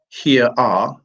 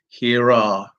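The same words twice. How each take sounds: First: The words are said with no linking R sound. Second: An R sound links the two words together. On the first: The speaker calls it wrong. "So it's not" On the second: The speaker calls it right. "It's ... in comes the R, and then we hear the R"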